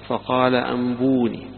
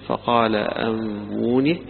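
The two takes are said the same way.

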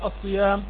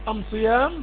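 First: The article is said with an l sound. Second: The article is said with an m sound. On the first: This is the usual form of the article. "يعني ليس من البر الصيام في السفر" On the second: This is the form used in the Himyar dialect. "هذه الميم وضعوها محل اللام"

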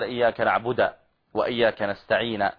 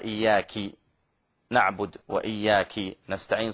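First: The pronoun ends with an a vowel, masculine form. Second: The pronoun ends with an i vowel, feminine form. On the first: God is addressed properly. The speaker calls it right. "بدل ما يقول إياك نعبد وإياك نستعين" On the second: A female is being addressed. The speaker calls it wrong. "صار هذا ضمير المخاطب للأنثى"

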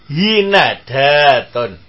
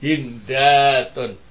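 First: The n is followed by an a vowel. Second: The n is followed directly by d, no vowel. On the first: "huruf yang kedua di fathah" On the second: "tetap sukun huruf keduanya"

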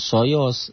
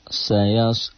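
First: The vowels are rounded, like 'o'. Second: The vowels are open, like 'a'. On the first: The speaker calls it wrong. "bukan soyos" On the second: The speaker calls it right. "Sayas, bukan soyos"

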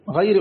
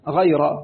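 First: The word ends with the vowel i. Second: The word ends with the vowel a. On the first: The word describes the believers. "قراءة الخفض فهي في الشاذ، قرأ بها الأعمش" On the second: The word is an exception or a circumstantial phrase. "بنصب الراء غير"

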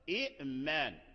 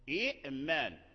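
First: A glottal stop closes the first syllable. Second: The same.

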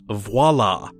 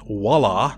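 First: The word starts with a V sound. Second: The word starts without a V sound. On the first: The speaker calls it right. "there is a V in the beginning of this word. The word is voila" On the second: The speaker calls it wrong. "a lot of people mispronounce it as voila"

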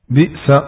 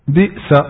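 Both takes have the same delivery.

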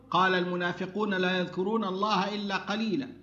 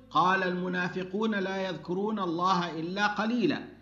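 Both takes have the same delivery.

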